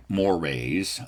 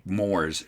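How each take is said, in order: First: "mores" said in two syllables, like "more-rays"; American pronunciation. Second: "mores" as one syllable, rhyming with "s'mores"; proper English pronunciation. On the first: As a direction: say "mores" to end like "moray". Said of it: "pronounce that word like". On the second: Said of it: "that term should rhyme". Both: Shown as a demonstration.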